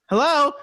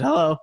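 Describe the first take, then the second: First: Much higher and louder hello, pleading; desperate calling out. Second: Said in the usual way. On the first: Retold or imitated. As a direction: call out into silence, rising in panic. Calling a scammer who went silent.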